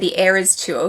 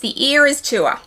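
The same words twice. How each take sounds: First: It is said with an American accent. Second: It is said with an Australian accent. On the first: "that's how Americans pronounce it" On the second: "with my proper Australian accent"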